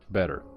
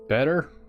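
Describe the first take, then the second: First: The pitch falls at the end like a statement. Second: The pitch rises at the end like a question. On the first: The speaker is confident they feel better. The speaker calls it right. "Statement, not question" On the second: The speaker is unsure how they feel. The speaker calls it wrong. "not as a question"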